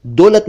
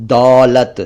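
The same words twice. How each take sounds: First: दौलत with rounded "o"; short "oh" in दौलत; mispronounced दौलत. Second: दौलत with open "au"; held "aw" in दौलत; correct दौलत. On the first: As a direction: say दौलत wrongly as "dolat". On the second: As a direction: say दौलत as "daulat". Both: Shown as a demonstration. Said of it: "दौलत नहीं".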